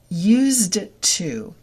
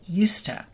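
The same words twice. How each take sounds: First: The d sound is kept. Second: The d sound is dropped.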